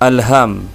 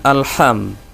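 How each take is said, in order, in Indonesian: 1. Bunyi h itu ringan dan berdesah. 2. Bunyi h itu berat dan dari tenggorokan. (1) "H tipisnya dibaca dengan tipis" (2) "bukan alham"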